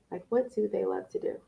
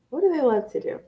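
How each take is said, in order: First: Said in the usual way. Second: Higher, pointed repeat, stress on do; emphatic repeat. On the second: Shown as a demonstration. Host repeating the key question to parents, higher and pointed. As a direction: hammer the question home.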